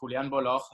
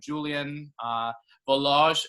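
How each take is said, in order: First: The name is said with a Spanish pronunciation. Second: The name is said with an English pronunciation. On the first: "if you would do it the Spanish way" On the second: "as they say in English"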